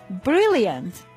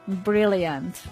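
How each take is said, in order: First: The pitch rises and then falls on the word. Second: The pitch stays flat across the whole word. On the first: The speaker is truly happy about the news. "with a tone of voice that rose and fell" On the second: The speaker means the opposite of the word. "it was flat"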